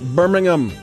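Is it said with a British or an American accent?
British. It is said the British, English way.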